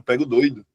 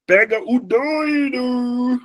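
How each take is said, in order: First: Said in the usual way. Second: "doido" drawn out high and slow; mock alarm call; hammed-up call. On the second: Shown as a demonstration.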